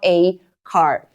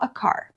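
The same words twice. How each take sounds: First: The 'a' is full, like the letter name. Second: The 'a' is a short, weak vowel. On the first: "eu vou dar mais ênfase para a letra A e aí ela vai ter o seu som original, o som lá do alfabeto" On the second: "na maioria das vezes a gente vai fazer o som fraco do A"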